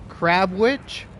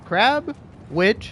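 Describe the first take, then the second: First: The two words are run together without a break. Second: The two words are said apart with a break. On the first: "back to back"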